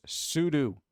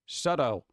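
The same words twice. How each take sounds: First: "sudo" with two long OO vowels; "sudo" pronounced SOO-doo, slowly. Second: "Sudo" rhyming roughly with judo but with an UH first; "Sudo" pronounced SUH-doh; SUDO as "SUD-oh". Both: Shown as a demonstration. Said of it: "Do people say sudo or sudo?".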